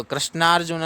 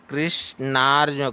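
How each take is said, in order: First: Quick "कृष्णार्जुन" starting kra instead of kri; rushed "कृष्णार्जुन" with an a in the first syllable; wrong reading. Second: "कृष्णार्जुन" starting kri, with an i; deliberate "कृष्णार्जुन" as krish-naar-ju; correct reading. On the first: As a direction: say "कृष्णार्जुन" fast and higher as krash-naar-juna. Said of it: "नहीं पढ़ना है". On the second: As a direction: break "कृष्णार्जुन" after krish and hold the naar. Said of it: "कृष्णार्जुन नहीं पढ़ना है". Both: Shown as a demonstration.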